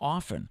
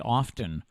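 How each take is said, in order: First: The T sound is silent. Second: The T sound is pronounced. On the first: "It's a silent T" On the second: "you hear so many people say often"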